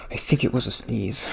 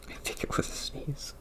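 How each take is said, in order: First: Said in the usual way. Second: Breathy whispered repeat of the words. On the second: Shown as a demonstration. Whispering so the neighbour downstairs can't hear. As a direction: drop to a hushed whisper for the neighbour.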